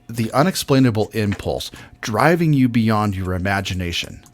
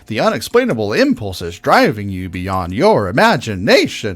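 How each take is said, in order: First: The pitch moves in one steady line. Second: The pitch jumps up and down dramatically. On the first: The speaker calls it right. "We want this" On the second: The speaker calls it wrong. "That's way over dramatic for, I mean, I'm over dramatizing what you did"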